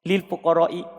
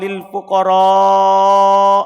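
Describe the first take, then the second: First: The alif vowel before the hamza is short. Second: The alif vowel before the hamza is long. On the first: The speaker calls it wrong. "tanpa mat. Dia tidak baca panjang" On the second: The speaker calls it right. "dibaca panjang"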